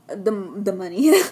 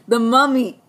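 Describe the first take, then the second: First: Mummy said as "Munny", with an n sound; mispronounced Mummy. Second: Mummy said clearly with an m, "Mum-mee"; corrected Mummy. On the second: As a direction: say "the Mummy" with a clean m, louder. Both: Real, not acted. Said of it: "Well, he's [name]".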